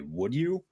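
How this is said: It is said formally, each word clearly.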